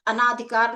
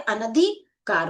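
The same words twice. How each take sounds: First: अनाधिकार as "a-naa-dhi-kaar"; wrong form, long aa. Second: अनधिकार slowly, as "a-na-dhi-kaar"; correct form, short a. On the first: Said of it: "अनाधिकार नहीं होता है". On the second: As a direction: say अनधिकार with a short a after n, drawn apart. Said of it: "अनधिकार होता है". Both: Shown as a demonstration.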